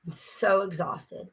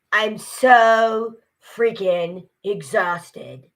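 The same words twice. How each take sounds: First: Soft, slow, worn-out own voice; real exhaustion. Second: Put-on loud, very drawn-out movie-character accent. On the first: Real, not acted. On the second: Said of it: "in the character's voice".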